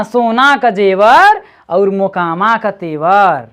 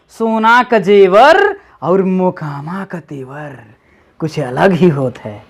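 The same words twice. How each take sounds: First: Slow Bhojpuri proverb recital; reciting a saying. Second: Slow, lower Bhojpuri proverb recital; reciting a saying. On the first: Teacher repeating the Bhojpuri proverb, reciting slowly. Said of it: "Bhojpuri में पढ़". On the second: Teacher quoting Bhojpuri proverb to child, reciting slowly. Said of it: "Bhojpuri में पढ़, सुने होंगे ना". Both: Shown as a demonstration.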